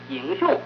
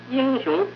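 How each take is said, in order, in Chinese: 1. 第一个字是阳平，第二个字是阴平。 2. 第一个字是阴平，第二个字是阳平。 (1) "颠倒过来变成功一阳一阴" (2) "一阴一阳"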